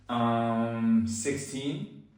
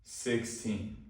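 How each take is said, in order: First: Hesitant, unsure. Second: SIXTEEN said calmly, unhurried, with a falling end; an unhurried, composed SIXTEEN that settles downward; calm and slow. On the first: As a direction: answer unsurely, SIXTEEN lifting at the end. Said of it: "you sound stupid when you say it like that". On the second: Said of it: "If you say it like this". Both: Shown as a demonstration.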